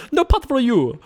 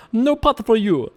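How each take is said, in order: First: Quicker, much higher refusal; faster soup Nazi. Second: Slow, higher barking refusal; soup Nazi. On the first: Streamer redoing the Soup Nazi line quicker, mock stern. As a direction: snap it out like the soup seller. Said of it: "That was too slow". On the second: Streamer mocking opponent as the Soup Nazi, gruff refusal. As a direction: deny them like a stern soup seller. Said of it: "soup Nazi thing". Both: Acted.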